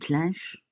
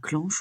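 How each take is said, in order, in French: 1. La voyelle est la nasale 'in'. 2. La voyelle est la nasale 'an'. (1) "on dit une clinche" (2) "normalement, on dit pas clenche"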